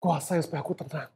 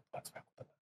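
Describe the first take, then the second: First: Said in the usual way. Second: Whisper. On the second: Shown as a demonstration. Preacher whispering a prayer for calm to the congregation. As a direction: whisper "Tuhan, supaya aku tenang" with no voice at all.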